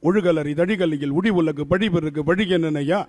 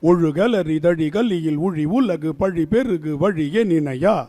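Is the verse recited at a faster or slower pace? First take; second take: faster; slower. First: The verse is recited at a faster pace. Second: The verse is recited at a slower pace.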